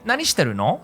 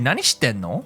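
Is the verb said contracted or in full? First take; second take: full; contracted. First: The verb is said in full as shiteru. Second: The verb is contracted to shitten. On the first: "we can just say" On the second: "you can change it to"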